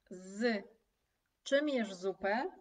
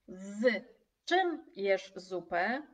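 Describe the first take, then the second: First: „Z” set apart with a pause before „czym”; stress on Z. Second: Slow, even question with a rise at the end; slow exam question. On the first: Teacher showing students the Z in the question, Z stressed and split off. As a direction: hit „Z” on its own, then „czym jesz zupę”. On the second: Examiner slowly asking students a question, slow and rising. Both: Shown as a demonstration. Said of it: "Ale jeżeli egzaminator zapyta".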